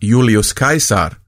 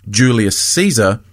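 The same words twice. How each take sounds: First: The name is said the classical Latin way. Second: The name is said the common English way. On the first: "rather than Julius Caesar" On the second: "most viewers would rather I say Julius Caesar"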